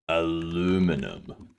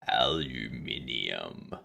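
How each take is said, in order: First: It is said the American way, four syllables. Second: It is said the British way, five syllables.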